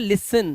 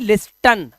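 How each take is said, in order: First: The t sound is silent. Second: The t sound is clearly pronounced. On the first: The speaker calls it right. "देखो लिया पड़ा लिसन" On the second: The speaker calls it wrong. "ना कि लिस्टन। लिस्टन नहीं पढ़ेंगे"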